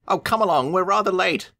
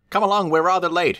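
First: Higher engine voice; Thomas calling. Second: High cheery engine voice; Thomas calling. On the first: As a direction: sing out the hurry call. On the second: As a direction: call out brightly, high. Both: A narrator's reading. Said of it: "he'll call".

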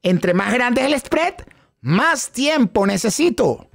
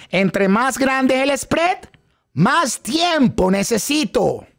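First: Slow, drawn-out echo of the phrase; slow chanted echo; echoed repeat line. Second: Slow, drawn-out teaching chant; slow phrase for students to echo; slow repeat-after-me line. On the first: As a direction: repeat the phrase slowly, like the class. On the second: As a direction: lead the class through it slowly. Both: Shown as a demonstration. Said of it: "digan detrás de mí".

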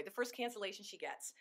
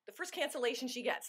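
First: "first" hit hardest, a falling tune after; stress on first. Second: "cancellation" carries the main stress, falling after. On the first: Coach rephrasing for consultants, stress on first. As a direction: punch "first" and let the line fall. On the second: Coach correcting her phrasing, stress on cancellation. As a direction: lean on "cancellation" with a falling tune. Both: Shown as a demonstration. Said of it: "Let me put it that way".

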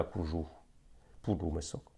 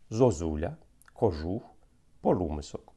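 First: "кожух" said as "кужух" and "полумисок" as "пулумисок", quieter; much softer wrong example with u for unstressed o. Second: "кожух" and "полумисок" with a clear unstressed o, no u; unstressed o kept. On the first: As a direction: show the forms the dialect does not use, with o turned into u. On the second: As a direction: keep every unstressed o as a pure o in "кожух". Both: Shown as a demonstration. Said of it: "А не зузуля".

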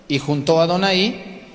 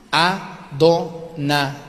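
First: Said in the usual way. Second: "Adonai" stretched syllable by syllable, very slow; slow spelled-out "Adonai"; Adonai drawn out very slowly. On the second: Shown as a demonstration. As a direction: draw out "Adonai" slowly so each vowel is heard. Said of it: "le sacó las vocales".

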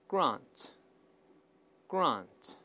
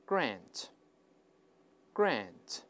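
First: "grant" with a broad AH vowel; long open AH in "grant"; British pronunciation. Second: "grant" with a short A as in cat; American AE in "grant"; American pronunciation. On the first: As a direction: say "grant" as GRAHNT. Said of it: "在美音中会把啊变成哎". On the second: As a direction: say "grant" as GRANT with an AE vowel. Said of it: "在美音中会把啊变成哎这么读". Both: Shown as a demonstration.

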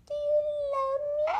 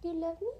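First: Squeaky high question, rising; high pet voice. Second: Said in the usual way. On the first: Acted. Asking his dog Stitch for love, squeaky high pet voice. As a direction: ask it like talking to a puppy.

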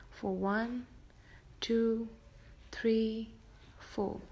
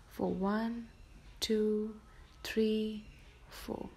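The two takes are said the same way.

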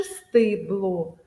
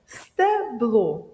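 First: «стибло» slowly, with a full и in the first syllable; clear и. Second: «Стебло» slowly, with a full е in the first syllable; clear е. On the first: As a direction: overpronounce the и in «стибло». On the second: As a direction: overpronounce the е in «Стебло». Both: Shown as a demonstration. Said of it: "е чи и".

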